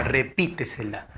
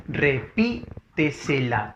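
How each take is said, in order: First: Said in the usual way. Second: Repítesela slowly split as re-PÍ-te-se-la; syllable by syllable. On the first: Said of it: "La siguiente palabra". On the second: Shown as a demonstration. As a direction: sound out Repítesela with pauses, leaning on PÍ. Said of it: "sería el silabente silabeo". (Repítesela silabeado despacio, con fuerza en PÍ)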